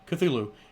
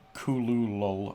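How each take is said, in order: First: It is said like an ordinary English word. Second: It sounds guttural, hardly like a real word. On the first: This is how most people say the name. The speaker calls it wrong. "which we all pronounced as Cthulhu, is not correct" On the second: This is how the name's creator said it. The speaker calls it right. "it sounds like you're not really saying a word"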